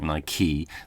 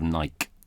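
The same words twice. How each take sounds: First: It is said with two syllables, ending in ee. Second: It is said with one syllable, no final ee. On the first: "the pronunciation of Nike, um, and how you might take on an Americanism" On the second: "Instead of Nike, we needed the E"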